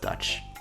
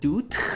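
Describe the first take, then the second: First: The vowel is a short uh sound. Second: The vowel is a long oo sound. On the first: The speaker knows the word. The speaker calls it right. "but it's Dutch" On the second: The speaker does not know the word. The speaker calls it wrong. "if I like didn't know what Dutch was and I said like uh Doot"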